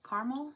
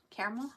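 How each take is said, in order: First: "Caramel" said as CAR-mul, rising as a question; two-syllable pronunciation. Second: "Caramel" said as CARE-uh-mul, rising as a question; CARE-uh-mul pronunciation. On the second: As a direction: ask "Caramel" with a CARE start. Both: Shown as a demonstration. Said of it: "What do y'all say?".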